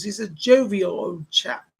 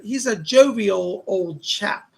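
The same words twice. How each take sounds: First: Put-on light British accent, slow and relaxed on "jovial old chap"; a hint of an old British gent. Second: Said in the usual way. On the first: Medium relays a jolly spirit, in a light British accent. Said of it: "That's how he says it". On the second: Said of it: "[name] just said".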